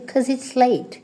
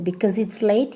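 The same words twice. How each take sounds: First: "'Cause" as one syllable, no be-; shortened form. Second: Said in the usual way. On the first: Shown as a demonstration. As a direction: drop the first syllable, just "'Cause". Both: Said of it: "you can say".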